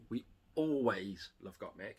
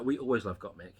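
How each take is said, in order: First: Slow, softer repeat leaning on "always"; lower, slower, "always" stretched for emphasis; stress on ALWAYS. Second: Said in the usual way. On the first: Real, not acted. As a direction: draw out "always" with a small break before it.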